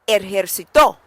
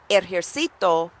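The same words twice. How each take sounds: First: The stress is on the final syllable to. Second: The stress is on the syllable ci.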